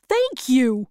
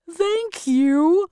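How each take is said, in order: First: Tin Woodman's thanks. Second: High-pitched, grateful Scarecrow; warm thanks. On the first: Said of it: "said the Tin Woodman". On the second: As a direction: thank them warmly in a raised voice. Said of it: "the Scarecrow said warmly". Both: Acted.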